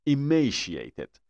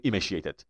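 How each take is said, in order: First: Emaciated drawn out very slowly, leaning hard on the m; stress on the m. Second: Emaciated said without doubling the m, the way not to say it; the mistaken reading of emaciated, shown as an error; wrong pronunciation. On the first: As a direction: model Emaciated syllable by syllable, pressing the m. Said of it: "رو ام تشدید بود". (Emaciated خیلی آهسته با تشدید روی م) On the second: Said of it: "نمیگفتیم emaciated". (تلفظ نادرست emaciated بدون تشدید روی م) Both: Shown as a demonstration.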